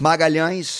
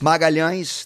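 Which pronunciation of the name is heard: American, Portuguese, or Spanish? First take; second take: Portuguese; Portuguese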